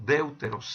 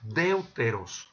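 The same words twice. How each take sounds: First: Said in the usual way. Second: Deuteros said slowly, each syllable spelled out DEU-TE-ROS; slow, careful Greek word. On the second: Shown as a demonstration. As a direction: stretch deuteros out syllable by syllable for the students. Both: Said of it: "que en este caso es".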